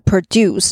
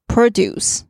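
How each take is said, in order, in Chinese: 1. 重音在第二个音节。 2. 重音在第一个音节。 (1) "当它是动词的时候是produce 就是制造的意思" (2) "那这边这个是名词"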